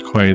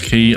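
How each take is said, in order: First: The word is said as 'kway'. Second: The word is said as 'key'. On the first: The speaker calls it wrong. "I read it as quay every single time" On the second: The speaker calls it right. "sorry key. I know it's key"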